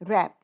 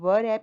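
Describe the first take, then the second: First: The word starts directly with the r sound. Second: A w sound is pronounced before the r. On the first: The speaker calls it right. "इसमें डब्ल्यू silent है" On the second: The speaker calls it wrong. "हम व रैप नहीं बोल रहे हैं"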